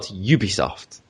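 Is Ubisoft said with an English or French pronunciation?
English. It is pronounced the English way. The speaker calls it wrong. "not Ubisoft"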